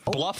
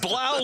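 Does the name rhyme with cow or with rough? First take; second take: rough; cow. First: The name rhymes with rough. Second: The name rhymes with cow. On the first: "like rough, rough, like a dog would say" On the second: "like cow"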